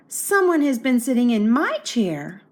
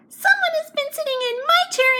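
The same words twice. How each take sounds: First: It is spoken in a medium-sized voice. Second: It is spoken in a small, tiny voice. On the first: "said in her middle-sized voice" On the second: "cried in his little wee voice"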